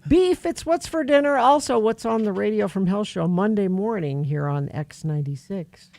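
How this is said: There is barely any pause after dinner.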